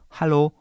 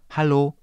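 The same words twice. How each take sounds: Both takes have the same delivery.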